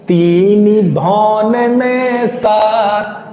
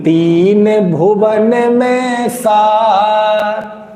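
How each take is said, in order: First: Said as 'teeni bhaun', the Braj dialect form. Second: Said as 'teen bhuvan', the standard Khari Boli form. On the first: This follows the original Braj text. The speaker calls it right. "बोलना क्या है" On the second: This is how people commonly say it. The speaker calls it wrong. "अपन क्या बोलते हैं"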